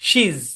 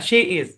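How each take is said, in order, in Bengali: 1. এটা একটি সংকুচিত শব্দাংশ হিসেবে বলা হয়। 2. এটা দুটি পূর্ণ শব্দ হিসেবে বলা হয়।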